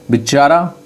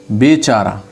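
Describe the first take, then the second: First: बिचारा said with a short i, bi-chaara; wrong pronunciation. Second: बेचारा said with a clear long e, be-chaara; correct pronunciation. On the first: Teacher reading the misspelt form to students, short bi. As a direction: read out बिचारा as the common mistake, bi not be. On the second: Teacher giving students the correct word, clear be. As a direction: give बेचारा properly, be not bi. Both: Shown as a demonstration. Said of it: "सही word बेचारा हो जाएगा".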